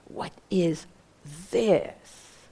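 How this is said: The stress is on "this".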